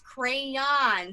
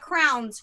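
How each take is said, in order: First: It is said with two syllables, like crayons. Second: It is said with one syllable, like crowns. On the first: This is the standard way of saying it. The speaker calls it right. "the correct word is crayons" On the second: This is the speaker's habitual way of saying it. The speaker calls it wrong. "I say crowns"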